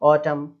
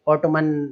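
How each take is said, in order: First: The word ends on an m sound. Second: The word ends with an added n sound. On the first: The speaker calls it right. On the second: The speaker calls it wrong.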